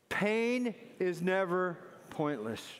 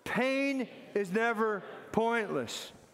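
First: It is said in a plain, calm way. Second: It is said with firm, strong conviction.

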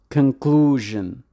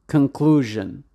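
The two takes are said the same way.

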